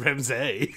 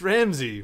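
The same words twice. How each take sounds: First: "Ramsay" ending in "zay"; wrong pronunciation. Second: "Ramsay" ending in "zee"; corrected pronunciation. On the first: Mocking the co-host's version, "Ramsay" ending in "zay". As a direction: say "Ramsay" with the last syllable as "say". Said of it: "It's not Ramsay". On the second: Correcting the co-host, "Ramsay" ending in "zee". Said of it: "It's Ramsay with a Y". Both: Shown as a demonstration.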